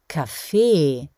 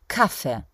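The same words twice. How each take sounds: First: The stress is on the last syllable. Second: The stress is on the first syllable. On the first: "so wird das Wort in Österreich auch betont, auf der letzten Silbe, also dem E" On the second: "oder Kaffee"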